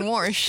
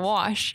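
First: The word has an r sound before sh. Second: The word has no r sound before sh. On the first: A regional Missouri way of saying it. "my mom was from Missouri and she always said Warsh" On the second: The usual way of saying it. "instead of Wash"

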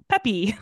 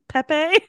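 First: The name sounds like the word 'peppy'. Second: The name does not sound like 'peppy'. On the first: "like a cheerleader" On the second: "Booth keep saying Pepe because my brother-in-law is named Pepe"

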